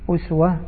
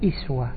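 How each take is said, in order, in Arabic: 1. الكلمة تبدأ بالحركة u. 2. الكلمة تبدأ بالحركة i. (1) "أسوة بضم الهمزة، هذا قراءة عاصم" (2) "وأما بقية القراء قرأوا إيش؟"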